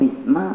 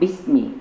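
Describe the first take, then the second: First: The word ends with an a vowel. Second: The word ends with an i vowel. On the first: The speaker calls it wrong. "bukan bisma" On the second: The speaker calls it right. "maka harokatnya bismi"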